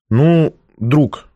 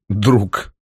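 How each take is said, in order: First: Said in the usual way. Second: Understated irony, dropped in pitch; ironic repeat. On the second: A narrator's reading. Man echoes the girl's claim, mildly ironic. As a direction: echo it back with light irony. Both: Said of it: "с иронией повторил я".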